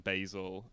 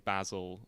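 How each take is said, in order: First: Basil with a long A, BAY-zil; long-A pronunciation. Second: Basil with a short A, BAZ-il; short-A pronunciation. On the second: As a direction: say basil to rhyme with dazzle. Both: Shown as a demonstration. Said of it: "word pronunciation".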